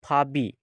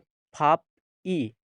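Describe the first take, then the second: First: The consonant links to the vowel as b. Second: The final p stays separate from the vowel. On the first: This is how it is actually read. "इसके पढ़ेंगे फाबी" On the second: This is how it is written. "लिखेंगे फाप ई"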